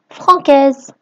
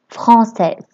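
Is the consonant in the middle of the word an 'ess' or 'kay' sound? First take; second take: kay; ess. First: The middle consonant sounds like k. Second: The middle consonant sounds like s. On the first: The speaker calls it wrong. "si j'écris française avec un C et j'enlève ma cédille ici, alors je prononce" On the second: The speaker calls it right. "j'ai écrit un C et je lui ai ajouté une cédille"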